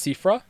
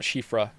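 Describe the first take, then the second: First: The name begins with an 's' sound. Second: The name begins with a 'sh' sound. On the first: The speaker calls it right. "It's Sifra" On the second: The speaker calls it wrong. "Not Shifra"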